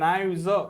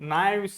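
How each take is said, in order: First: The word ends with a z sound. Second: The word ends with an s sound. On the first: The speaker calls it right. "જ થાય ઉચ્ચાર" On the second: The speaker calls it wrong. "નાઇવ્સ નહીં"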